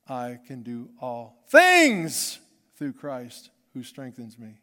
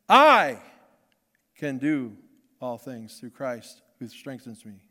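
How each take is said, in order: First: The stress falls on the word "things". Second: The stress falls on the word "I".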